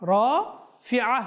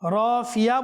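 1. গলায় থেমে যাওয়া ধ্বনি মাঝের স্বরধ্বনি দুটিকে আলাদা করে। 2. y গ্লাইড মাঝের স্বরধ্বনি দুটিকে জুড়ে দেয়। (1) "রাফিআ বলবো, কেননা এখানে কি রয়েছে, আইন রয়েছে" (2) "রাফিয়া বলবো নাকি রাফিআ?"

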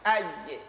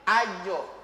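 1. Gema setelah j terdengar seperti e. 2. Gema setelah j terdengar seperti o. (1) "Ketika dia sukun jangan rubah mulutnya" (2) "jangan ajo. Berarti berubah bibir lagi"

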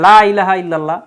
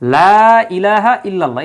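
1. প্রথম স্বরটি ছোট করে কাটা হয়। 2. প্রথম স্বরটি লম্বা করে টানা হয়। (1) "কেউ যদি এই জায়গায় টান না দেয়" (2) "এই জায়গায় দেখেন লা এর সাথে টান আছে কিন্তু"

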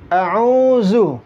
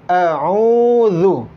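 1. Suku kata terakhir dibaca dengan z biasa. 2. Suku kata terakhir dibaca dengan ujung lidah keluar, mirip th. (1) "Sering juga dibaca zu" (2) "Yang benar adalah a'udzu"

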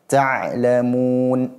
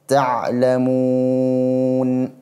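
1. Vokal sebelum n terakhir ditahan sebentar. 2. Vokal sebelum n terakhir ditahan sedang. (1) "Ketika dia kita baca dua"

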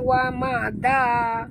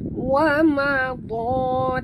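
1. Konsonan terakhir itu tipis dan ringan. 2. Konsonan terakhir itu tebal dan berat. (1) "jangan baca wa ma da" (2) "tebal ta"

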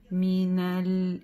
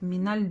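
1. Первой гласной дают полную длину. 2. Первая гласная произносится очень коротко. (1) "Нет, мина, миналь" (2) "Часто вот эту фатху очень коротко читать"

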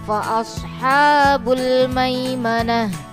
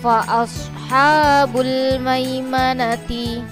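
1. Kata terakhir berakhir dengan bunyi h. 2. Kata terakhir berakhir dengan suku kata t penuh. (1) "Ketika wakof atau dibaca berhenti menjadi" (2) "ada tak marbuto berharokat kasroh"

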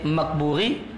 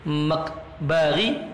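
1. Vokal setelah b adalah u. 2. Vokal setelah b adalah a. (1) "Ada tiga cara baca. Maka boleh Makburi"

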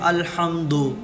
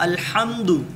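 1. शब्द 'o' स्वर से खत्म होता है। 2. शब्द एक छोटे 'u' स्वर से खत्म होता है।

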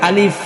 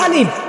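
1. এটা দাঁতের ওপর দিয়ে বাতাস বের করে বলা হয়। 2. এটা দুই ঠোঁট একসাথে চেপে বলা হয়। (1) "বাতাস বের হবে, উপরের দুটা দাঁত নিচের ঠোঁটের মধ্যে লাগবে" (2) "দুই ঠোঁট মিলাইয়া"

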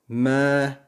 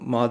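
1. Ünlü, öne alınmış 'e' sesidir. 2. Ünlü, açık ve art damaktan çıkan 'a' sesidir. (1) "Me diye okuyacağız" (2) "Ma değil arkadaşlar"

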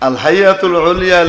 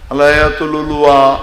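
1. নামটি 'al haiatul ulia' হিসেবে বলা হয়। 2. নামটি 'alayatul ulua' হিসেবে বলা হয়।

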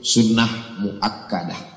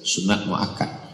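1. Kata-kata itu berakhir dengan -ah, akhirannya dihilangkan. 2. Kata-kata itu berakhir terpotong, tanpa vokal akhir. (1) "Kalau dimatikan sukun" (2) "Kalau ada yang menyebut sunat muakkad itu bahasa Indonesia"

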